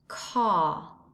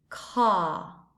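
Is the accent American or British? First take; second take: British; British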